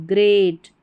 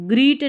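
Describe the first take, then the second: First: "great" with an AY vowel, grayt; "great" with a long A; correct pronunciation. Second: "greet" with a long EE; "greet", an EE vowel as the misreading; wrong pronunciation. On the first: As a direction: say "great" lower, rhyming with "gate". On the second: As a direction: say "greet" rhyming with "feet". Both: Shown as a demonstration. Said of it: "greet नहीं".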